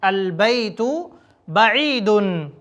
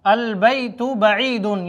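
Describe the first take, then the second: First: البیت then a pause, بعیدن drawn out slowly; words kept apart. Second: البیت بعیدن joined as albaytu ba'eedun with a u sound; linking waw added. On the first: Teacher models البیت بعیدن word by word for students. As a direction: say البیت and بعیدن as two separate slow words. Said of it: "بول سکتے ہیں البیت بعیدن". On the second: Teacher shows students the added waw in البیت بعیدن. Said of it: "یہاں پر واو ہم بڑھا لیتے ہیں". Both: Shown as a demonstration.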